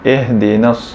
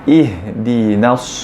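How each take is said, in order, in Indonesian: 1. Kata itu dimulai dengan vokal 'eh'. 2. Kata itu dimulai dengan vokal 'ih'. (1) "kita terbaca dengan eh ihdinas" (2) "sepatutnya kita baca ihdinas siratal mustaqim"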